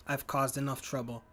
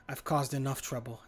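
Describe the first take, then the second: No difference in how they are said.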